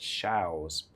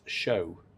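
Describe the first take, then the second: First: The name ends with an s sound. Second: The name ends in a vowel, no s. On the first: This is how the speaker has usually heard it. "I've always heard it pronounced shows" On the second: This is how the name is actually pronounced. "It's pronounced show, as in you go to a musical show"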